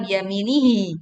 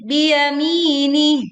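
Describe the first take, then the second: First: "biyaminihi" with an extra long hi at the end; wrongly lengthened ending. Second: Slow "biyamini" closed without lengthening the end; correct stopped ending. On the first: Teacher warning against lengthening, wrongly stretched ending. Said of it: "tidak dibaca panjang". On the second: Teacher showing the correct pause on ha, stopped ending. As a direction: chant "biyamini" higher, mi long, ending short on h. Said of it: "Jadi biyamini". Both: Shown as a demonstration.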